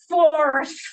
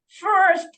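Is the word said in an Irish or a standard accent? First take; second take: Irish; standard. First: The word is said in an Irish accent. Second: The word is said in a standard accent.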